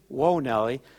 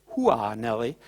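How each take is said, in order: First: 'Whoa' is said as one syllable. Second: 'Whoa' is split into two syllables. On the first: The speaker calls it right. "but it is" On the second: The speaker calls it wrong. "a lot of people say"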